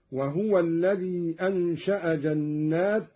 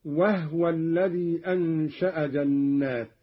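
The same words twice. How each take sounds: First: Said in the usual way. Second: وهو said "wahwa" rather than "wahuwa"; silent-vowel haa. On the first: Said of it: "بإسكان الهاء". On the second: Shown as a demonstration. Teacher giving a further Qalun example, وهو with vowelless ha. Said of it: "قرأ قالون بإسكان الهاء".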